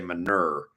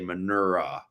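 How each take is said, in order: First: The word ends without an extra uh vowel. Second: The word ends with an extra uh vowel. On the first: "if they don't put the uh on the end, just say manure" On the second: "I still hear them say manura"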